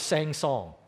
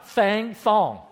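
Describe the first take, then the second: First: The s sounds are said clearly, without a lisp. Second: The s sounds are said with a lisp.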